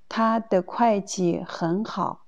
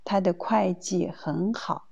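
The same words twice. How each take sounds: No difference in how they are said.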